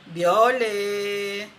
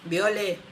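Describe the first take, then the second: First: It is said noticeably louder than before. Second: It is said at a normal speaking volume. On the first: The soul insists because it was ignored. "voy a hablar un poco más alto" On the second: The soul speaks gently at first. "Así como les estoy hablando a ustedes"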